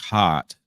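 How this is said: The R is dropped, British non-rhotic style.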